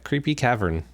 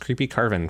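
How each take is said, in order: First: The second word is said as cavern. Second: The second word is said as carven. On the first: The speaker calls it right. "It's uh, Creepy Cavern" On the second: The speaker calls it wrong. "I used to pronounce Creepy Carven for some reason"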